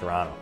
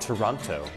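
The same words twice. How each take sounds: First: The second t is dropped. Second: The second t is clearly pronounced. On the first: The speaker calls it right. "With no second T. That's the correct way to do it" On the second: The speaker calls it wrong. "Not Toronto"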